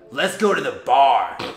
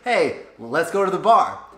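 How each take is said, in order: First: It sounds aggressive and commanding. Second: It sounds polite and gently suggesting.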